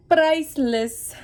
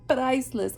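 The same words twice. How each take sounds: First: Priceless high and louder, stretched out; delighted emphasis. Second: Said in the usual way. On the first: Real, not acted. Remembering salon gossip back home, delighted and emphatic. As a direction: relish the word priceless high and slow.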